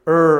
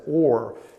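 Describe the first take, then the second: First: The vowel sounds like 'ur'. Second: The vowel sounds like 'or'. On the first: It is said the way it looks. "I'm just going to go with the way it looks to me" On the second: Some other people say it this way. "sometimes they pronounce it as Or"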